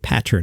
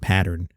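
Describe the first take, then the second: First: The T sound is clearly pronounced. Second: The T sound is swallowed. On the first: The speaker calls it right. "stop swallowing my T's like the New Yorker and say pattern" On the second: The speaker calls it wrong. "not pattern"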